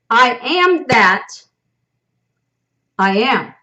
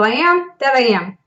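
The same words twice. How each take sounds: First: The emphasis falls on the word that. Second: The emphasis falls on the words I am. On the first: What is sought lies outside oneself. "I am that. Okay, that being outside of me, separation" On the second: Everything sought is already within oneself. "I am is claiming that I am, meaning everything is in me"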